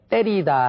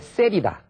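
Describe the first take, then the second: First: The word begins with a tense tt sound. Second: The word begins with a tense ss sound. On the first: The speaker calls it right. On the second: The speaker calls it wrong.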